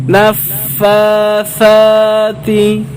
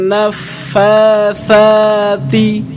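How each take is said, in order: Both takes have the same delivery.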